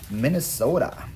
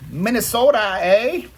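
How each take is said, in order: First: Said in the usual way. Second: Mock Minnesota accent, high and loud; playful Minnesota accent. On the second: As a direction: belt it out as a hammed-up Minnesotan. Playful regional "eh" call-out.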